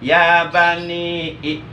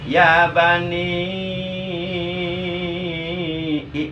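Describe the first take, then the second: First: The final vowel is held briefly, two beats. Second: The final vowel is held longest, six beats. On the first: "dua harkat" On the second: "boleh dibaca enam harkat"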